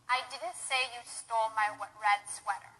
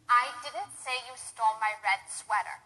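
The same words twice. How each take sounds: No difference in how they are said.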